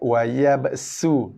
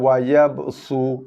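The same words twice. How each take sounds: First: The s is a plain, light s sound. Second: The s is a heavy, emphatic s sound. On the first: This follows the reading being taught. "Sin eh" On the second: This follows another transmitted reading.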